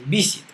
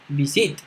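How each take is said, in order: First: The stress is on the first syllable. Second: The stress is on the second syllable. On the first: The speaker calls it right. "entonces es visit, visit, visit, ok, acento en la primera sílaba" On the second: The speaker calls it wrong. "porque no es visit, ahí sería acento en la segunda"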